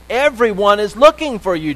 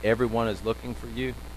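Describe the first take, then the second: First: It is said forcefully, like a reprimand. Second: It is said in a plain, calm tone. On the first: It is a rebuke for going away. "there's an exclamation point behind that. It's almost like a reprimand" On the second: It is a simple report. "Did he just say"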